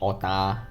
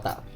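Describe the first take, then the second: First: The word ends on a vowel, without k. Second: The word ends with a clear k sound.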